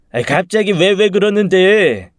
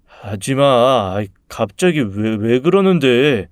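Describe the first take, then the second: First: High, loud, whiny mock stammer; mocking mimicry. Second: Drawn-out, timid stammer; stammering protest. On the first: Bully parroting the stammering boy to his face, mocking. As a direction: mimic the victim in an exaggerated high whine. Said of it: "제 목소리를 흉내내며 더 빈정거렸습니다". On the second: Acted. Bullied boy protesting to his tormentor, stammering. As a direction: stumble weakly over a plea to stop. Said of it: "말 더듬는 거 봤냐".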